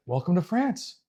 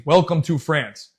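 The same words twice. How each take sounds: First: Soft, offhand mock welcome with a lifted ending; understated imitation, softer and rising at the end; imitating opponent's greeting. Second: Said in the usual way. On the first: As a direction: quietly mimic a cool, taunting welcome.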